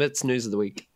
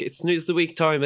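First: Said in the usual way. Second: Sing-song segment jingle; jingle announcer. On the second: Pretend. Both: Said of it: "That's the new jingle".

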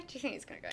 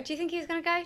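First: Much softer, tossed-off repeat; soft under-the-breath echo; quieter repeat. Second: Said in the usual way. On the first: Real, not acted. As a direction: mumble the question again, half to yourself. Repeats the same question.

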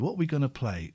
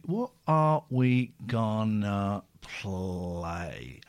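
First: Said in the usual way. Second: A lowered, slowed-motion take; slowed-down deep voice. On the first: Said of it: "repeats the question, plain first". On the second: Shown as a demonstration. Host stalling while picking a song, slow and low. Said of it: "repeats it slowed and deep".

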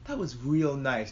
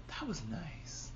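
First: Slow, voiced, savouring remark; slow appreciation. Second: Very soft, slow murmur of awe; awed whisper. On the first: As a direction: say it slowly, stressing how nice. Repeats the hushed remark, voiced. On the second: Retold or imitated. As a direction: drop right down, slow and hushed. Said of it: "he even whispered his attack".

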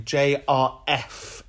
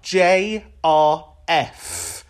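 First: "J R F" slow and deliberate, each letter separate; spelled out clearly. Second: "J R F" slowly, each letter separate; spelled out clearly. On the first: Host tells everybody the right name, slow clear letters. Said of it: "so this is the name". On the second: Host corrects listeners on the caller's name, slow careful letters. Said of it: "clear this up". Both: Shown as a demonstration.

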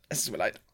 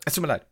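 First: Softer, sheepish sorry; quiet apology. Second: Said in the usual way. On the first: Real, not acted. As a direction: mumble the apology down low. (leise Entschuldigung) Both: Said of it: "Nein, jetzt reden wir doch drüber".

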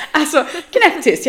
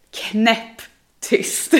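First: Stretched out through a laugh, slow; laughing emphasis. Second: Said in the usual way. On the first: Shown as a demonstration. Telling a friend how she goes silent, laughing. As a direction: lean into knäpptyst with a laugh.

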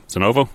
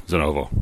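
First: "Zenovo?" asked with a rising tune, unsure; questioning rise. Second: "Zenovo." stated with a falling tune, a touch quieter; settled fall. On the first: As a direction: try "Zenovo?" as a question, pitch rising at the end. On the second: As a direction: land "Zenovo." firmly with a falling end. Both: Shown as a demonstration. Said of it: "Is that how it's pronounced?".

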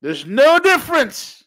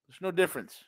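First: High, loud, slow emphatic shout. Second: Quiet. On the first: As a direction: bellow the point slowly. Shouted then repeated quietly. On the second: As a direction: drop the voice to a hush. Quiet repeat. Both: Real, not acted.

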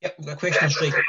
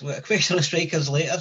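First: Glitchy robotic distortion, fast. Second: Said in the usual way. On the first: Real, not acted. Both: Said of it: "hear that robotic voice".

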